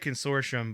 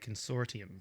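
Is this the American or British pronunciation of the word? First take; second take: American; British. First: It is said with an American pronunciation. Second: It is said with a British pronunciation. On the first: "I'm going to say consortium" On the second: "in the U K they say consortium"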